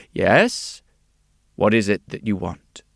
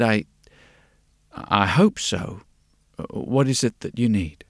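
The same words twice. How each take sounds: First: Steady, assured shopkeeper's question; confident. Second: Halting, unsure, with a repeated start; hesitant. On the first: Glasses maker usually greeting customers, confident. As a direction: ask it readily and confidently. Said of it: "quite confidently would say". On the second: Glasses maker facing a strange customer, hesitant. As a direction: falter and pause before asking. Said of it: "he hesitated". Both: A narrator's reading.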